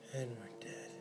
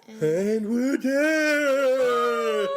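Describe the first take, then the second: First: It is whispered quietly, as if to himself. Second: It is said aloud, not whispered.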